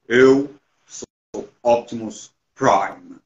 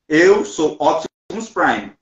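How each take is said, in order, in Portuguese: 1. É dito com uma voz de personagem imponente e exagerada. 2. É dito com a voz normal do falante. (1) "tentando fazer a voz dele" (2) "uma coisa é eu falar aqui agora"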